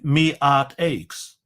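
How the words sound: It is said regionally, the h dropped, 'my' as 'me'. The speaker calls it wrong.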